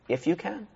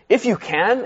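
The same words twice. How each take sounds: First: It sounds gentle and reflective. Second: It sounds annoyed and sharp.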